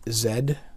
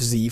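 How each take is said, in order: First: The letter is said as zed. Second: The letter is said as zee.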